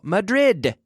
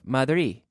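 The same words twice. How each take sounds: First: The final D sound is clearly pronounced. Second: The final D sound is dropped. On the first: The speaker calls it right. "We have to pronounce the last syllable" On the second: The speaker calls it wrong. "Where did your D go?"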